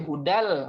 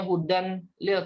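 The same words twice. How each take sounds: First: "hudal" with n turned into l; merged idgham reading. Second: "hudan lil" with a clear n; unmerged reading. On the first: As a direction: say hudal, melting the n into l. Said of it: "tapi hudal masuk ke lam". ("hudal", nun melebur ke lam) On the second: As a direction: say hudan lil, keeping the n separate. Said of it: "maka bukan bacanya". ("hudan lil" dengan nun jelas) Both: Shown as a demonstration.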